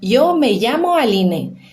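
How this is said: The ll sounds like an English y. This is how most of Spain says it. "O Y com som de I, doble L com som de I"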